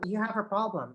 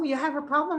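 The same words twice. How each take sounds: First: It sounds concerned and lower in energy. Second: It sounds excited and high in energy. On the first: The speaker sympathizes with the problem. The speaker calls it right. "Lower energy, and I should sound more concerned" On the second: The problem is treated as good news. The speaker calls it wrong. "I'm so excited. That's not the response"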